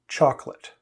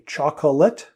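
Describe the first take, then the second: First: The word is said with two syllables. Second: The word is said with three syllables. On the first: The speaker calls it right. "native speakers pronounce this chocolate with only two syllables" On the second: The speaker calls it wrong. "The mistake that people make is they say chocolate"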